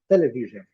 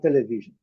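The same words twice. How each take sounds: First: The stress is on the first syllable. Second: The stress is on a later syllable. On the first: The speaker calls it right. "a sílaba forte é a primeira" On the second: The speaker calls it wrong. "Não"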